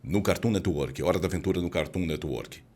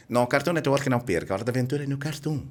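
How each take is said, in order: First: Put-on slow, lower, patient announcer for kids and elders; slow elderly-friendly ad voice. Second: Fast, higher, punchy promo read; hyped ad voice. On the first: Podcast host demoing an ad for kids and elders, slow and low. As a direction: spell it out gently, like for grandparents. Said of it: "falar com crianças e idosos". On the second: Host showing the wrong way to read a kids' ad, fast and pushy. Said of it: "Viu a diferença?". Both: Shown as a demonstration.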